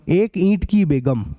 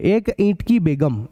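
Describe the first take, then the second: First: Slow, each word set apart; slow dictation. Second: Said in the usual way. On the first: Shown as a demonstration. Teacher dictating the sixth question, slowly. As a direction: say it slowly so they can copy it. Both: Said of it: "एक ईंट की बेगम चाहिए".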